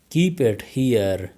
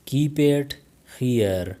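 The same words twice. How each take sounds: First: Slowed-down teaching model; slow, careful. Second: Said in the usual way. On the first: Shown as a demonstration. Teacher modelling the phrase for learners, slow. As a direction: say it slowly for learners. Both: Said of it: "teacher repeats the phrase twice".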